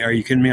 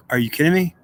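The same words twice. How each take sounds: First: Said in the usual way. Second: Pitched up in disbelief, a rising question; stunned disbelief. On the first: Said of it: "to say". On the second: Retold or imitated. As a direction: react like you can't believe what you just heard. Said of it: "And I'm like".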